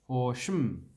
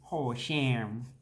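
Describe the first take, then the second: First: The second syllable has a reduced 'uh' vowel. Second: The second syllable has a full 'a' vowel. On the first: The speaker calls it right. "you want to not say the A" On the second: The speaker calls it wrong. "You don't say sham"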